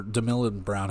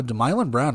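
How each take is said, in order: First: Demilon said as DIM-i-lon; second pronunciation try. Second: Demilon said as deh-MY-lon; first pronunciation try. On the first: Unsure of the name, trying Demilon as dih-MIL-on. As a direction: Demilon with short vowels, dih-MIL-on Brown. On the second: Reading the starter's name, trying Demilon as deh-MY-lon. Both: Shown as a demonstration. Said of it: "however it's pronounced".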